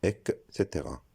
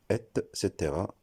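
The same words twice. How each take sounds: First: Et cetera beginning with K, ek-sétéra; wrong pronunciation. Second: Et cetera beginning with T, ett-sétéra; correct pronunciation. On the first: Teacher showing the mistake, et cetera as ek-sétéra. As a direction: swap the T of et cetera for K. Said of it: "et non". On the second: Teacher showing the right form, et cetera as ett-sétéra. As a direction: sound a clear T in et cetera. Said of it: "on le prononcera". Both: Shown as a demonstration.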